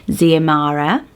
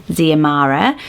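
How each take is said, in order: Both takes have the same delivery.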